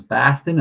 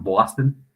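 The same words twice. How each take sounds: First: Imitating a Boston accent; put-on Boston pronunciation. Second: Imitating a New York accent; put-on New York pronunciation. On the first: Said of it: "people from Boston would say". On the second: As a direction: say it like a New Yorker. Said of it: "people from New York".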